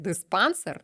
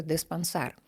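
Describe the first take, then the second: First: Диспансер stressed on the last syllable, сер, the wrong way. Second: Диспансер stressed on the middle syllable, пан; correct stress. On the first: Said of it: "це неправильний наголос". (неправильний наголос диспансЕр) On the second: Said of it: "має бути диспансер". (правильний наголос диспАнсер) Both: Shown as a demonstration.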